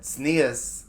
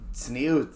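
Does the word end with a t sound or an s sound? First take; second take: s sound; t sound. First: The word ends with an s sound. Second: The word ends with a t sound.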